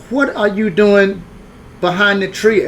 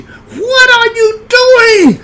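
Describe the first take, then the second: First: Questioning hostess. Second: Imitated shrieking hostess, very high and loud; banshee scream. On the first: Retold or imitated. Hostess asking boy behind her tree, questioning. And she said. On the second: Hostess catching boy in her backyard, banshee scream. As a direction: scream it long and drawn-out like a banshee. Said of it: "She screamed like a banshee".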